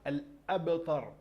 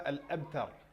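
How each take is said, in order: First: The b is released with an echoing bounce. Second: The b is flat, with no echoing bounce. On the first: The speaker calls it right. "on a dit" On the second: The speaker calls it wrong.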